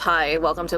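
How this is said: The voice is deep and flat. The speaker seems bored and unwilling to be there. The speaker calls it wrong. "a deeper voice, um, like talking like this"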